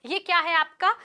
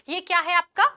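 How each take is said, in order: No difference in how they are said.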